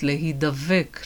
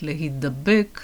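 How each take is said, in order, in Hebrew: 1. העיצור האמצעי הוא צליל v רך. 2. העיצור האמצעי הוא צליל b קשה. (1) "הראשונה היא מבניין נפעל" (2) "והשנייה מבניין התפעל"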